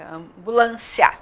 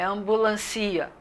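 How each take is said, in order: First: The final i and a glide together in one syllable. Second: The final i and a are split into two syllables. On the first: The speaker calls it right. "é ambulância" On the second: The speaker calls it wrong. "não é ambulancia"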